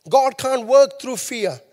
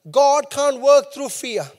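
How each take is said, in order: Both takes have the same delivery.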